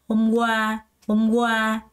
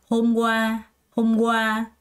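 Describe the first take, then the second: The two takes are said the same way.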